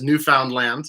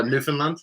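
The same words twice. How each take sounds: First: Newfoundland with a full, clear "found" in the middle; old mispronunciation of Newfoundland. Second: Newfoundland with the middle reduced, "NOO-fn-lund"; usual pronunciation of Newfoundland. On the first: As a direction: say Newfoundland as new-FOUND-land, vowels unreduced. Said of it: "historically accurate to mispronounce it as". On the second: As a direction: say Newfoundland quickly run together, weak middle syllable. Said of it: "it's usually pronounced". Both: Shown as a demonstration.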